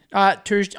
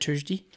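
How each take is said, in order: First: A weak Irish accent on "Thursday", said like "Tursday"; rubbish Irish accent. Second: A fuller Irish "Thursday", soft t with no th, quieter, trailing off; better Irish accent. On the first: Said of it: "my Irish accent was garbage when I said Thursday". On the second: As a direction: try the Irish "Thursday" again, this time more convincingly. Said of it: "I can do better ones than that". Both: Shown as a demonstration.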